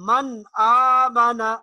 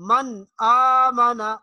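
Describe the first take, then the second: The two takes are said the same way.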